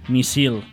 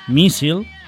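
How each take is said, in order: First: The stress falls away from the second-to-last syllable. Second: The stress falls on the second-to-last syllable. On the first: The speaker calls it wrong. "no haurem de dir" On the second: The speaker calls it right. "fent-les tal com són, planes"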